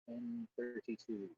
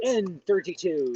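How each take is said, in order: First: It is said flatly, with little energy. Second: It is said with more energy and enthusiasm.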